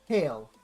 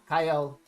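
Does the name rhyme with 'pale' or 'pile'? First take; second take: pale; pile. First: The name rhymes with 'pale'. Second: The name rhymes with 'pile'. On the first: The speaker calls it right. "It's Kale. That's how the community pronounces it" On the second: The speaker calls it wrong. "not Kyle"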